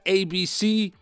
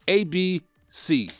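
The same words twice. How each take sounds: First: The letters are said evenly without a pause. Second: There is a noticeable pause before C. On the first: The buttons are pressed in an even rhythm. The speaker calls it wrong. "It's not A B C" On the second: There is a delay before the last button. The speaker calls it right. "we need to take a considerable pause before pressing C"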